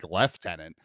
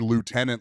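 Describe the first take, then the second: First: It is said with a British pronunciation. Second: It is said with a non-British pronunciation.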